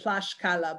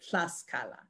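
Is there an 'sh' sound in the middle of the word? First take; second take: yes; no. First: The middle has an 'sh' sound. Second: The middle has no 'sh' sound. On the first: This is the older pronunciation. "it would have been Tlaxcala" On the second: This is the modern pronunciation. "today in Spanish it said Tlaxcala"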